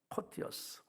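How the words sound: It is said with a British pronunciation. "이게 영국 발음이더라고"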